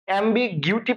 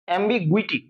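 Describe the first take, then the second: First: The third syllable sounds like 'gyoo'. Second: The third syllable sounds like 'gwi'. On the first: The speaker calls it wrong. "পড়বা না" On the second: The speaker calls it right. "গুইটি"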